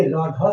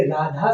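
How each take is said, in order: First: राधा said as "रोधो", rounded o vowels; राधा like रोधो, with o sounds instead of long aa; wrong pronunciation. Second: Said in the usual way. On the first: Shown as a demonstration. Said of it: "ये राधा सही नहीं है". (राधा को "रोधो" की तरह, आ की जगह ओ बोलें) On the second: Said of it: "तो ये राधा सही है".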